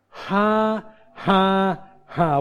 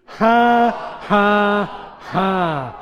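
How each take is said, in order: First: Three separate, spoken laugh syllables; deliberate "ha". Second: Three big, separate laugh syllables; deliberate loud "ha". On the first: Preacher showing congregation how to begin laughing, deliberate ha-ha-ha. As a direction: place each "ha" slowly, stepping down in pitch. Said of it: "as simple as". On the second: Preacher leading congregation to try laughing, loud deliberate ha-ha-ha. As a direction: call out each "ha" high and loud, stepping down. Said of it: "Why don't you try that?". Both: Shown as a demonstration.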